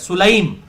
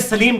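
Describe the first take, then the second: First: It is said as Sulaim, with u and ai. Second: It is said as Salim, with a and ee. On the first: This is the actual form of the word. "ये उम्मे सुलैम लफ्ज है" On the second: This is how it is commonly read in Urdu. "लेकिन हम उम्मे सलीम कहते हैं उर्दू में"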